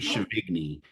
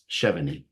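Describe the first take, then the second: First: The G is pronounced as a hard G. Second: The G is not pronounced as a hard G. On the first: The speaker calls it wrong. "like a hard G" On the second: The speaker calls it right. "but it's Chevigny"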